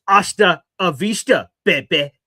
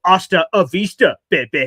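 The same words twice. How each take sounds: First: Imitating a movie tough guy, loud; mock Terminator send-off; action-hero farewell. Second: Loud mock movie tough-guy line; action-hero catchphrase. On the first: Brother's movie-hero farewell quote. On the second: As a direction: fling out the family catchphrase. Family catchphrase recalled.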